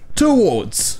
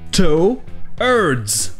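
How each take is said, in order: First: The R sound is silent. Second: The R sound is clearly pronounced. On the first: "en Angleterre, le R ne se prononce pas" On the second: "En anglais américain, le R se prononce"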